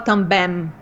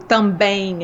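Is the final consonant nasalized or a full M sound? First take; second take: full M; nasalized. First: The word ends with a full M sound. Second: The word ends in a nasalized vowel. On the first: The speaker calls it wrong. "A gente não fala também" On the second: The speaker calls it right. "a gente faz um em"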